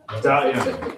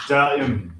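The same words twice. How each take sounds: First: "Da'im" held a little longer and lower; plucked bass syllable. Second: "Da'im" sung short like a plucked bass note; plucked bass syllable. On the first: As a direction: let "Da'im" ring after the pluck. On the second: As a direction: clip "Da'im" like a plucked string. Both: Shown as a demonstration. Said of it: "Can you try that with me?".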